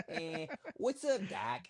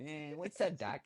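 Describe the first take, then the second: First: High, slow cartoon rabbit drawl; Bugs Bunny. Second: Put-on a lighter New York accent, a bit higher; tossed-off New York accent. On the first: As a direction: toss off a cartoon rabbit's line in a New York accent. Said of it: "he's gonna do a Bugs Bunny accent". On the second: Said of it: "that's a New York accent".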